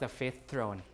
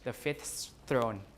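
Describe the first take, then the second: First: One consonant at the end of fifth is dropped. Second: Every consonant at the end of fifth is pronounced.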